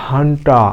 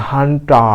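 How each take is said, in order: No difference in how they are said.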